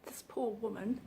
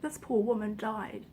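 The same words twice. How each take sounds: First: Barely audible, voice catching on the words; fighting back tears, very soft; choked up. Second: Said in the usual way. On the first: Real, not acted. Vlogger telling a viewer about a dying woman, choking up. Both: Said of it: "I wasn't intending on getting emotional".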